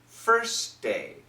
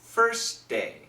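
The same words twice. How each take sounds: First: The T at the end of first is dropped. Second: The T at the end of first is dropped.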